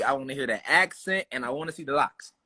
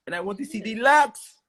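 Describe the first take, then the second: First: Said in the usual way. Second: Hammed-up Louisiana accent, rising high; playful mock accent. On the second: Repeats it, playing up the accent.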